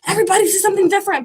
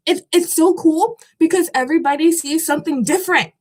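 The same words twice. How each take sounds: First: Higher and much faster, tumbling out; quick excited repeat. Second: Said in the usual way. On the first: Real, not acted. Repeating her point to viewers, fast and high with excitement. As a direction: rush the repeat, pitched up with glee. Repeats the phrase right after.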